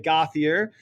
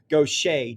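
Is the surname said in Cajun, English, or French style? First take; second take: English; Cajun. First: The name is said with an American English pronunciation. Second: The name is said with a Cajun French pronunciation. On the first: "normally in New Hampshire, people will say Gauthier, and this hurts my heart" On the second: "Cajun French uh, perversion of Gautier becomes Gaucher"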